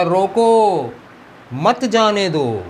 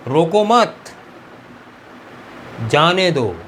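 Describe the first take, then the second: First: "रोको" high and loud, a break, then "मत जाने दो" drawn out as one phrase; pause after रोको. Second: "रोको मत" said as one raised phrase, long pause, then "जाने दो"; group रोको with मत, break, then release जाने दो; pause after मत. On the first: Teacher reads what the commander meant, pausing after रोको. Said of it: "कमांडर ने लिखा था". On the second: Teacher reads the note as the guard misread it, pausing after मत. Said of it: "उसने पढ़ा". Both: Shown as a demonstration.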